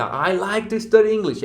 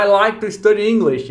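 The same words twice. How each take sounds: First: Slow, careful copy of the English line; imitating the narrator. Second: A louder English line, read like the course recording; English audio narrator. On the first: Shown as a demonstration. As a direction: echo the narrator's rhythm and intonation slowly. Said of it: "você imita a entonação, o ritmo, a velocidade". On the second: Retold or imitated. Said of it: "Você escuta o narrador do texto falar".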